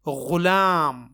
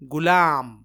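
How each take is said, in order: First: It starts with a throaty, fricative gh sound. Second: It starts with a plain, hard g sound. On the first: The speaker calls it right. "ये गैन से गुलाम है" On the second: The speaker calls it wrong. "ग या गाफ से गुलाम पढ़ते और बोलते हैं, जो कि गलत है"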